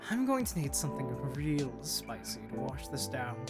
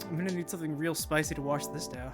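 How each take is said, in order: First: It is said in the character's put-on voice. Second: It is said without the full character voice.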